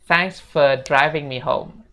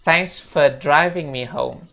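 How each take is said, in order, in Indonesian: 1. Kata 'for' disingkat menjadi 'fe'. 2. Kata 'for' disingkat menjadi 'fe'.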